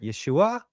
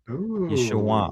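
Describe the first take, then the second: First: The pitch goes up on the name. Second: The pitch goes down, with a nasal sound. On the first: "or they might even go higher" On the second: "It goes through your nose and down"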